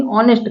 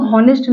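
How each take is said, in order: First: ऑनेस्ट starting straight on the vowel; silent H. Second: हॉनेस्ट starting with an audible H; wrong sounded H. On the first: Teacher gives learners the correct word, ऑनेस्ट with silent H. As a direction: drop the H from ऑनेस्ट. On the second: Teacher rejects this reading for learners, हॉनेस्ट with H sounded. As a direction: breathe an H onto हॉनेस्ट. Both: Shown as a demonstration. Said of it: "हॉनेस्ट नहीं ऑनेस्ट कहेंगे".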